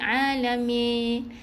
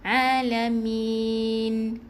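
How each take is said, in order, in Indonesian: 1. Bunyi n terakhir samar dan hampir tidak terdengar. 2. Bunyi n terakhir jelas dan tertutup rapat. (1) "Tak boleh alamin. macam dengar tak dengar huruf nun" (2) "Mati dengan nun yang Uh, N eh? ... hujung lidah tu tekan"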